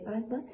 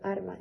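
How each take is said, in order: First: The consonant before the m sounds like l. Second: The consonant before the m sounds like r. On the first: "en vez de alma" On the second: "la confusión de L y R implosivas, como por ejemplo la pronunciación de arma"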